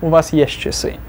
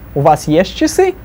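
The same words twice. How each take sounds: First: The voice falls as in a statement. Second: The voice rises as in a question.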